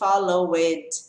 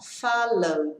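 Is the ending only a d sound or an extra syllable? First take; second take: extra syllable; d sound. First: The ending is said as an extra syllable. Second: The ending is only a short d sound. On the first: The speaker calls it wrong. "Não tem esse followed" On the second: The speaker calls it right. "esse e é mudo, não falo ele. É esse som"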